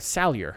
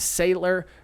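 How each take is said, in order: First: The name does not sound like 'sailor'. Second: The name sounds like the word 'sailor'. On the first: The speaker calls it right. "I really hope I'm saying that" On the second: The speaker calls it wrong. "I keep saying Sailor"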